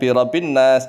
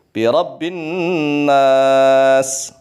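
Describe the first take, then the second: First: The b and n are short, without nasal hum. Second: The b and n are held, with nasal hum. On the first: The speaker calls it wrong. "jangan birabbin nas" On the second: The speaker calls it right. "ba ditekan, kemudian nun ditekan, gunnah"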